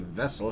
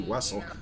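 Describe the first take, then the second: First: The word begins with a V sound. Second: The word begins with a W sound. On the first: "He wouldn't say vessel" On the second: "he'd say Wessel"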